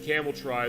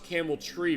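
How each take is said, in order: First: The second word ends in an 'eye' vowel. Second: The second word ends in an 'ee' vowel. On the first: The speaker calls it right. "it is spelled T R Y. It is phonetic" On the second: The speaker calls it wrong. "I thought it was Camel Tree"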